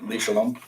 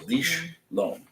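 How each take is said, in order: First: A full vowel sounds between the sh and l. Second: The sh runs straight into the l, no vowel. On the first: "some people will pronounce it like" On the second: "shva in the middle of a word is generally a stoppage of the word"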